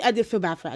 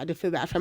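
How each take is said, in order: First: Said in the usual way. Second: Quieter, lower repeat of "I did feel bad for her"; soft sincere admission. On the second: Real, not acted. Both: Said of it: "I'm not gonna lie".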